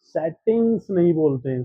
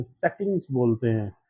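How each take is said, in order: First: सेटिंग्स said level; सेटिंग्स without the fall; सेटिंग्स held up, as not to say it; wrong version. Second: सेटिंग्स lower with a falling tune; सेटिंग्स dropping, one syllable stress; right version. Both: Shown as a demonstration. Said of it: "तो आप सेटिंग्स बोलते हैं".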